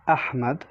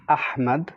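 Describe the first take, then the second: First: The H is heavy and breathy. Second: The same.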